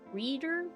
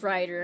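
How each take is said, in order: First: The first vowel is a long 'ee' sound. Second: The first vowel is an 'eye' sound. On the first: "Maybe pronounced more E?" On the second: "Or maybe it is Rider"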